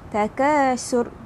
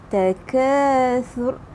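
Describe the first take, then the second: First: The middle consonant is a plain 's' sound. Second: The middle consonant is a soft 'th' sound. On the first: The speaker calls it wrong. "Jangan baca takasur" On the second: The speaker calls it right. "lidah berada di bawah gigi hadapan"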